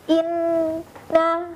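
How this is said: The held n goes silent with the nose closed. The sound is flowing through the nose. The speaker calls it right. "Jika suara sahabat menghilang"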